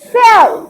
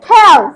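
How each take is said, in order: First: The word begins with an s sound. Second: The word begins with a k sound. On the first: The speaker calls it right. "এই জন্য এটা হয়েছে সেল" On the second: The speaker calls it wrong. "Not হেল"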